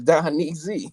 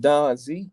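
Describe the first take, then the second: First: The name is said in three syllables. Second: The name is said in two syllables. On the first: The speaker calls it right. "please say it with the knee in it" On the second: The speaker calls it wrong. "my name ain't no damn Don Z"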